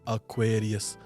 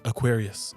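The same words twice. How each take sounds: First: It is said slowly with every vowel said clearly. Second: It is said quickly with the vowels run together. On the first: Listeners understand the word. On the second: Listeners do not understand the word.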